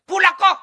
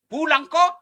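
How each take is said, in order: First: Jauh lebih tinggi dan keras, memaksa; rengekan istri melengking. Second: Nada tinggi merengek, lebih keras; menirukan istri menyuruh pulang. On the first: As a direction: teriak manja menyuruh pulang. Istri menelepon, mendesak suami pulang. (istri menelepon ustaz, menyuruh pulang dengan suara melengking keras) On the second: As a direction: seperti istri yang menuntut lewat telepon. Istri menelepon suami, menyuruh pulang. (istri menelepon suami, menyuruh pulang dengan nada tinggi merengek) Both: Retold or imitated.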